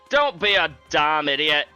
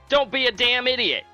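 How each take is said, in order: First: It is said in the speaker's own voice. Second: It is said imitating Joey's voice.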